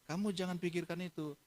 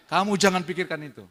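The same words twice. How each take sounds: First: Softer, higher fatherly reassurance; gentle reassurance. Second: Loud, higher fatherly insistence; firm insistence. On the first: Father telling his daughter not to worry, gently reassuring. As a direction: ease her worry softly. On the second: Father insisting his daughter not worry, loud and firm. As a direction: press the reassurance home forcefully. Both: Retold or imitated.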